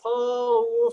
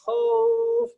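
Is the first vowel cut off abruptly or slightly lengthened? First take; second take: abrupt; lengthened. First: The vowel glides abruptly into the next sound. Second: The vowel is slightly drawn out and soft. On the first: The speaker calls it wrong. "Nggak khauf" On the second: The speaker calls it right. "tapi khauf"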